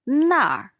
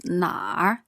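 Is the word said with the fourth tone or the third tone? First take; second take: fourth tone; third tone. First: The word is said with the fourth tone. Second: The word is said with the third tone. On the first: It points to there. "那儿 there is fourth tone" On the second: It asks where. "Where is 哪儿 third tone"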